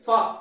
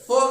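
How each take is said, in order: First: The syllable is said with an 'ah' vowel. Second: The syllable is said with an 'oh' vowel. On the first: The speaker calls it right. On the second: The speaker calls it wrong. "ఫో అని తప్పుగా పలుకుతున్నారండి"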